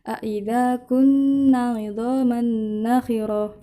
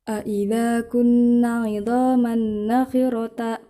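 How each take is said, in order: First: The last word ends with an h sound. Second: The last word ends with a t sound. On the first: The speaker calls it right. "jika tak marbutoh diwakofkan maka dibaca ha" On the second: The speaker calls it wrong.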